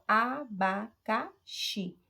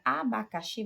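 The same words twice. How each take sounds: First: "Abacaxi" very slowly in four beats, a-ba-ca-xi; teacher's slow four-pulse "Abacaxi"; syllable by syllable. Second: Said in the usual way. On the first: Shown as a demonstration. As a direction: pause between every syllable of "Abacaxi". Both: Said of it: "você vai ter quatro emissões de voz".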